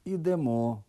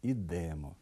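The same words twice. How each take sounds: First: Ідемо stressed on the second syllable, ідЕмо; correct stress. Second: Ідемо stressed on the first syllable, Ідемо; wrong stress. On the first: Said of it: "порушують наголос у таких словах". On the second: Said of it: "Неправильний". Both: Shown as a demonstration.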